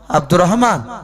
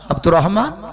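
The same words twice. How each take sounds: The two takes are said the same way.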